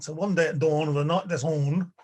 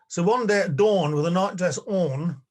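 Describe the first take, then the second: First: Lightly put-on Belfast accent; a touch of Belfast in the vowels. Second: Said in the usual way. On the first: Shown as a demonstration. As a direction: make DAWN rhyme with ON, Belfast-style. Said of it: "say it in a Belfast accent". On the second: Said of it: "I don't naturally rhyme dawn with on".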